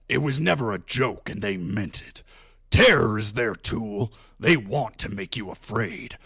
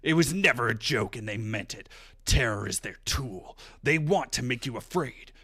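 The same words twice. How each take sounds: First: It is read in a put-on Sundowner voice. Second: It is read in his normal voice.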